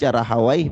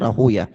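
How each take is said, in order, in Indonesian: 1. Nama itu berakhir dengan bunyi 'way'. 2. Nama itu berakhir dengan bunyi 'yah'. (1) "bisa dibaca Rahawai" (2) "bisa dibaca Rahuyah. Tapi ahlul hadis membacanya Rahuyah"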